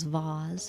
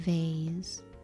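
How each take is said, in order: First: The word is said with a British pronunciation. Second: The word is said with an American pronunciation. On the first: "in Britain they would pronounce them just as vase" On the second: "in America they might just say vase"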